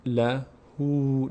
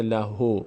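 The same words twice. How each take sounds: First: Slow "لهو" ending in a long "oo"; lengthened final vowel. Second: "لهو" said "la-ho", without the long "oo"; wrong short ending. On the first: Teacher models the small vav's effect, long "oo". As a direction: draw out "لهو" as "la-hoo". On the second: Teacher shows what it does not become, "o" ending. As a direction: end "لهو" on an "o" instead of "oo". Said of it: "نمیشه لهو". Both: Shown as a demonstration.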